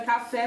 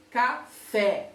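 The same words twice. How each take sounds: First: Said in the usual way. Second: "Café" split in two, stressing fé. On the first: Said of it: "a sílaba mais forte". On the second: Shown as a demonstration. Teacher showing pupils the strongest syllable, stressed FÉ in "Café". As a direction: say "Café" syllable by syllable, weight on the final fé. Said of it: "a sílaba mais intensa".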